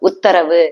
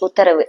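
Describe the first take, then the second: First: Each sound of the word is clearly separated. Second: The sounds of the word run together. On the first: The speaker calls it right. "அது ஊக்கு ஒரு ஒலி இருக்கு. இத்துக்கு ஒரு ஒலி இருக்கு" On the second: The speaker calls it wrong. "இப்படிங்கிறது தான் இப்ப படிக்கிறாங்க. பட் இப்படி கிடையாது"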